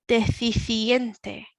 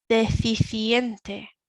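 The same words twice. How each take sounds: Both takes have the same delivery.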